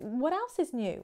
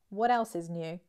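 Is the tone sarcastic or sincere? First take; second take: sincere; sarcastic. First: It sounds sincere and genuinely interested. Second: It sounds sarcastic and unimpressed. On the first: The speaker really wants to hear the news. "Genuine, sincere" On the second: The news is nothing surprising or important. "Sarcastic, sarcasm"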